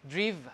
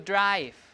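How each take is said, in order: First: The vowel is a single pure vowel. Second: The vowel is a gliding diphthong. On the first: This is the older, earlier pronunciation. "the previous pronunciation of this word must have been driv" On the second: This is the modern pronunciation. "So this is a diphthong"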